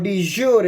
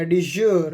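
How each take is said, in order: First: "de jure" said dee-JOR-ay; three-syllable pronunciation. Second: "de jure" said dee-ZHOOR, drawn out; alternative pronunciation. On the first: Lecturer defines permanent recognition, "de jure" ending in "ay". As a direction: sound the final vowel of "de jure". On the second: Lecturer offers students the second form, "de jure" as dee-ZHOOR. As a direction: end "de jure" on a long r, no vowel. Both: Shown as a demonstration. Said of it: "या कुछ लोग इसको de jure भी कहते हैं".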